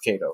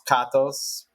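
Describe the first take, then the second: First: The name is pronounced the American way. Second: The name is pronounced the Greek way. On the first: This is the adapted everyday form of the name. "the Americanized version is Katos" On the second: This is the original family form of the name. "technically pronounced Katos because you know I'm Greek"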